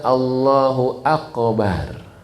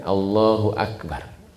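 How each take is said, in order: First: The k in Akbar bounces with an echo. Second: The k in Akbar is plain, without a bounce. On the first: God is buried. The speaker calls it wrong. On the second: God is the greatest. The speaker calls it right. "aknya tidak mantul, barnya pendek kan"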